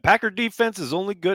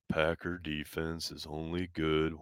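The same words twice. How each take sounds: First: It is read in a plain, normal voice. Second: It is read in a gloomy, mopey put-on voice. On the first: The speaker calls it wrong. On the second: The speaker calls it right.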